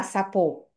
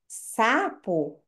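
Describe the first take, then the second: First: "sapô" stressed on the last syllable; imitating a child's misplaced stress: sa-PÔ; wrong final stress. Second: SA-po, long stressed first syllable, weak second; "sapo" with natural first-syllable stress; stressed then unstressed. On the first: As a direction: shift the accent of "sapô" onto PÔ. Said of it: "a tendência do erro delas é falar sapô". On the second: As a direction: lean on the "sa" of "sapo", let "po" drop. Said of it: "eu tenho uma sílaba tônica e uma átona". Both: Shown as a demonstration.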